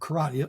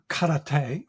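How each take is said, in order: First: It is said in the common, mangled way. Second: It is said in the original, traditional way. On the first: The speaker calls it wrong. "as most people da- do damage to the name" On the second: The speaker calls it right. "the term karate"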